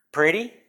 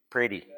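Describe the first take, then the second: First: "Pretty?" asked with a rising tune; "Pretty?" lifted up at the end like a question; questioning rise. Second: "Pretty." said flat and falling, as decided; "Pretty." dropped down at the end, a firm statement; settled statement. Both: Shown as a demonstration. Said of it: "can't pronounce what the word is".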